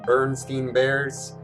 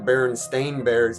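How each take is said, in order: First: The name ends with a 'steen' sound. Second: The name ends with a 'stain' sound. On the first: The speaker calls it wrong. "it's not the Bernstein Bears" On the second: The speaker calls it right. "It's actually the Berenstain Bears"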